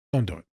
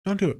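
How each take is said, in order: First: Low, dropped-down firm warning. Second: High-pitched insistent warning; pleading warning. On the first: Warning listeners off pranking their therapist, firmly. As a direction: drop it low and final. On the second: Warning listeners off pranking their therapist, pleading. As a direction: send it up high, urging them off. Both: Real, not acted.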